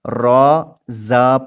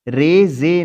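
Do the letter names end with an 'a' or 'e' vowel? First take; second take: a; e. First: The letter names end in an 'a' vowel. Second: The letter names end in an 'e' vowel. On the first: This is the Arabic way of naming the letters. The speaker calls it right. "पढ़ना है" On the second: This is the Urdu way of naming the letters. The speaker calls it wrong. "नहीं"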